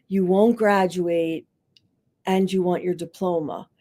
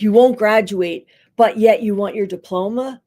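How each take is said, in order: First: A respectful counselor giving a double-sided reflection; neutral and even. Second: Louder, pointed "but yet" that makes the listener feel foolish; a judging counselor pressing the point; belittling tone. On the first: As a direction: set both facts down calmly for them to decide. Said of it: "you're, like, putting this in front of them". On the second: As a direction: push the contrast so it sounds like "are you crazy". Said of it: "that sounds like, "What, are you crazy?". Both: Shown as a demonstration.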